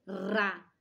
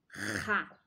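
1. O R é um toque leve e rápido. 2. O R é um som áspero que vem da garganta. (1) "Qual é o som dele quando ele é fraquinho?" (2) "Qual é o som dele quando ele tem dois?"

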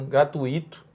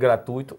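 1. A tônica cai na sílaba 'i'. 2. A tônica cai na sílaba 'tu'. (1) "uma pronúncia errada" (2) "em vez de"

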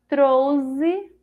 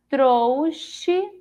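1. A consoante do meio tem som de z. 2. A consoante do meio tem som de ch. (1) "Com o som de Z" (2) "Com o som de C H"

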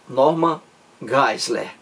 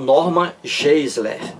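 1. O nome é pronunciado com seus sons estrangeiros originais. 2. O nome é pronunciado com sons de estilo português. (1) "A pronúncia correta é Norman Geisler" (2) "Eu digo Geisler em português de forma aportuguesada"

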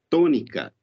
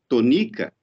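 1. A tônica está na primeira sílaba. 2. A tônica está na segunda sílaba. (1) "nós sabemos que a primeira sílaba já é a tônica dessa palavra" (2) "a tônica caía na segunda sílaba, N-I"

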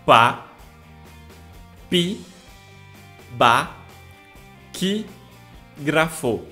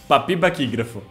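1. É dita devagar, sílaba por sílaba. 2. É dita rápido, com as sílabas juntas. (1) "Repitam comigo" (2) "Agora fala rápido"

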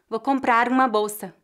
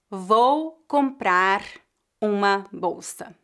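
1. O R liga-se suavemente à vogal seguinte. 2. Cada palavra é dita separadamente, sem ligação. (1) "A pronúncia mais natural seria" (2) "raramente alguém vai dizer"

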